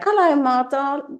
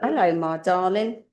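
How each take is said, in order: First: It is said in a comic put-on voice. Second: It is said in an ordinary speaking voice. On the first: "not in that voice"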